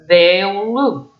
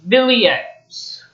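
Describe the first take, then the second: First: The name ends with an 'oo' sound. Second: The name ends with a sounded 'eks'. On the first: It is how the owner says the name. The speaker calls it right. "the proper way of saying it" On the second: It is read straight from the spelling. The speaker calls it wrong. "that's the way the word is spelled"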